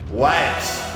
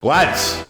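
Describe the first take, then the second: First: It is said quietly. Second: It is said loudly.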